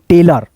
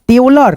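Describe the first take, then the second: First: The final syllable has a weak 'uh' vowel. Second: The final syllable has a full 'o' vowel. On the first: The speaker calls it right. "अ पढ़ना" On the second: The speaker calls it wrong. "टेलर नहीं दोस्तों"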